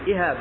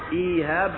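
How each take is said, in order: First: The first vowel is short, directly followed by h. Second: The first vowel is long before the h. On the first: It is the old word for untanned hide. "بالهمزة بعدها هاء مباشرة" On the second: It is a modern name unknown to the Arabs. "بالياء هذا غير معروف"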